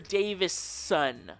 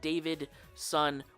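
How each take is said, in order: First: The name has no d sound before the s. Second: The name has a d sound before the s. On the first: The speaker calls it right. "The reason I say it like that" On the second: The speaker calls it wrong. "I pronounced it David Son with a D"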